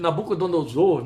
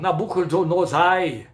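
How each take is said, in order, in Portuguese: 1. O nome termina com som de 'or'. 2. O nome termina com som de 'ai'. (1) "Não conseguia dizer o nome de Nabucodonosor"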